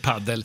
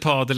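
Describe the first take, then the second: First: The first vowel is a short A. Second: The first vowel is a long A.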